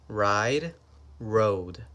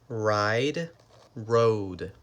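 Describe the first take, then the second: The two takes are said the same way.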